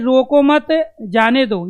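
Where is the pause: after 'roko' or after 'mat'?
after mat. The pause comes after the word 'mat'. Let the person go. "यहाँ जाने देने की बात कर रहा है कि इसको रोको मत"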